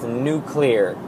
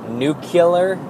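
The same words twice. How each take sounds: First: "nuclear" said as "NOO-klee-er"; correct pronunciation. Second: "nuclear" with an extra syllable, "NOO-kih-ler"; wrong pronunciation. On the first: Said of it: "it's nuclear". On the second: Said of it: "It's not nuclear". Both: Shown as a demonstration.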